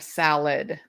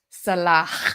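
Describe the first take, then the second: First: The name ends without a clear H sound. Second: The name ends with a strong, audible H sound. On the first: The speaker calls it wrong. "They're calling him Salad instead of Salah" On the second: The speaker calls it right. "it's a hard H"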